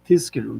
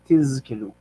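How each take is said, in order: First: The middle consonant sounds like an s. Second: The middle consonant sounds like a z. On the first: The speaker calls it wrong. "a zayin can, can sometimes sound like a samach" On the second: The speaker calls it right. "instead of tizkiru"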